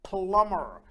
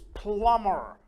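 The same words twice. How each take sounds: First: The B sound is left out of the word. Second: The same.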